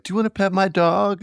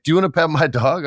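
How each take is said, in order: First: High, sweet dog-owner offer; chirpy neighbour offering his dog; friendly Brooklynite. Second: High, quick offer; chirpy neighbour offering his dog; friendly dog owner. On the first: Brooklyn local offering his dog to a stranger, high and friendly. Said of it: "and they're like". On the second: Stranger in Brooklyn offering his dog, high and quick. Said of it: "legit was like". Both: Retold or imitated.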